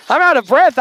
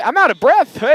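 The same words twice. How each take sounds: First: Breathless with a laugh; gasping, still winded; out of breath. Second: Breathless and panting; out of breath. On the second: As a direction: catch your breath between words. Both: Real, not acted.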